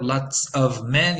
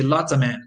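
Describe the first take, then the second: First: "lots of men" said slowly with a full "of"; slow careful demo. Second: "lots of men" with the v of "of" dropped; reduced demo. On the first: Teacher giving the careful form to students, slow. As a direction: say "of" fully and slowly. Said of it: "Instead of". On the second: Teacher giving the relaxed connected form to students, quick. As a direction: drop the v in "of". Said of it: "you say". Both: Shown as a demonstration.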